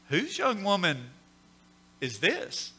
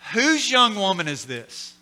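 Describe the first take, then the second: First: It sounds admiring, struck by her beauty. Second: It sounds suspicious, asking who is trespassing.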